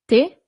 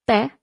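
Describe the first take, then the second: First: "Tè" with a closed E, like "tay"; no accent on the E. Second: "tè" with an open E, as in "bet"; a short, open eh on "tè"; accented E. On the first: Teacher asking learners to hear the difference, closed E in "Tè". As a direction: close the vowel of "Tè" towards ay. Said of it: "without the accent". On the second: Teacher asking learners to hear the difference, open E in "tè". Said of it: "with an accent". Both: Shown as a demonstration.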